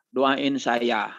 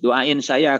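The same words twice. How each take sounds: First: Said in the usual way. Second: Louder, pleading on the verge of tears; near tears. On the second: Retold or imitated. Pilgrim begs his boss, close to tears. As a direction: beg the boss, half crying. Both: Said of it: "eh, mau nangis".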